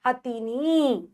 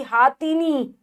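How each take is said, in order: First: हथीनी said slowly with short ह; slow, clear हथीनी with short first vowel; corrected word. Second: हाथीनी said with long हा; the wrong version हाथीनी; wrong form. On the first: (शुद्ध उच्चारण, धीरे: हथीनी) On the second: (गलत उच्चारण: हाथीनी) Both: Shown as a demonstration. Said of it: "गलत".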